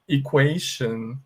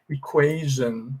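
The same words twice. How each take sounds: First: The middle consonant is a voiceless 'sh' sound. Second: The middle consonant is a voiced 'zh' sound. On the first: It follows the usual spelling pattern. The speaker calls it wrong. "Então você falaria assim" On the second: It is an exception to the pattern. The speaker calls it right. "ele tem som de jan. A gente fala assim"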